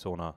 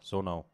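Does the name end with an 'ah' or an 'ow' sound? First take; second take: ah; ow. First: The name ends with a plain 'ah' sound. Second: The name ends with an 'ow' sound. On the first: The speaker calls it wrong. "nicht Sona" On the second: The speaker calls it right. "Sonau, nicht Sona"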